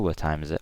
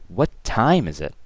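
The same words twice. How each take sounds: First: The word time is not stressed. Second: The word time is stressed.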